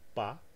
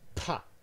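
First: The p has no puff of air. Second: The p has a puff of air. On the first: "the first one is unaspirated" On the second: "the second one has aspiration"

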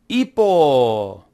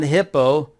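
First: The word starts with no h sound. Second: The word starts with an audible h sound. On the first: The speaker calls it right. "it's hippo" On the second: The speaker calls it wrong. "we don't pronounce the H. It's not hippo"

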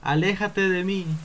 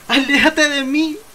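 First: It is said quietly with little emotion. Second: It is said loudly with strong emotion. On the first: The speaker calls it wrong. "Eso por lo menos debería haber sido más fuerte y con más emoción" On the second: The speaker calls it right. "¿Así? ... Ahora sí"

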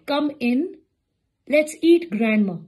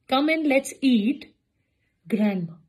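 First: There is no pause between 'eat' and 'grandma'. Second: There is a pause after 'eat' before 'grandma'. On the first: Grandma is the thing to be eaten. The speaker calls it wrong. "Pause के साथ वो क्या बनेगा" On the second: Grandma is invited to come and eat. The speaker calls it right. "जिन लोगों ने ईट के बाद लगाया वो करेक्ट था"

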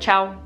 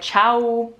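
First: The word is said quickly with a short ending. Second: The final vowel is held out longer. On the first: The speaker is not a native speaker. The speaker calls it wrong. "say ciao, like really quickly, just like ciao" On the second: The speaker is a native speaker. The speaker calls it right. "in Italy, we're like ciao"

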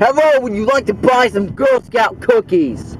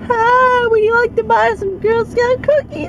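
First: It is said in his own normal voice. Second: It is said in a put-on girl's voice.

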